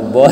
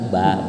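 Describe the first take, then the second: First: The syllable is said with a rounded 'o' vowel. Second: The syllable is said with an open 'a' vowel. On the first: The speaker calls it wrong. "Kalau bo" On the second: The speaker calls it right. "Salah, salah. Ba, ba"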